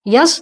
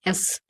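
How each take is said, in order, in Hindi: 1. इसकी शुरुआत "y" ध्वनि से होती है। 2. इसकी शुरुआत सीधे स्वर से होती है। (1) "यस नहीं है" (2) "यस और एस में अंतर है ना?"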